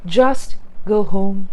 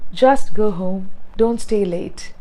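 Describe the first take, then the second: First: "Just go home" slow, each word separate; a slow, careful "Just go home"; slowly and clearly. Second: Said in the usual way. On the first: Shown as a demonstration. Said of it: "You can also say". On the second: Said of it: "You can just say".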